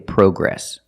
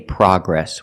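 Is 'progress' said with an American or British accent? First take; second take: British; American. First: The first vowel is an 'oh' sound. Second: The first vowel is a short 'ah' sound. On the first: The speaker calls it wrong. "We don't say progress" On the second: The speaker calls it right. "In America, we say progress. ... with the short ah sound, like hot and stop"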